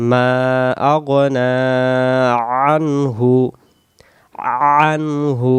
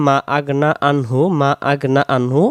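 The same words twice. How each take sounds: First: মা আগনা আনহু with long মা and pressed throat. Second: মা said short, no long a; wrong reading, মা without stretch; alif dropped. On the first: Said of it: "গলা চেপে". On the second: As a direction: clip the a in মা. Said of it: "এই মিমের পরে যে আলিফটা আছে এটাও বাদ চলে যাবে". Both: Shown as a demonstration.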